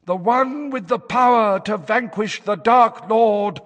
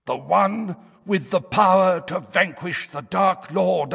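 First: Higher, louder trance-like fortune teller; trance prophecy voice. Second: High, harsh, hoarse fortune teller; trance prophecy voice. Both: A narrator's reading. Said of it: "in the harsh, hoarse tones".

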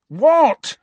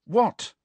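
First: Very loud, high what; high-pitched angry yell of disbelief; exasperated shout. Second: High, sharp questioning what; irritated rising query; impatient. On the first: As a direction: explode on the word in frustration. Harry repeats it, much louder. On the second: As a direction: snap a quick high question. Harry's impatient first of two whats. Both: A narrator's reading.

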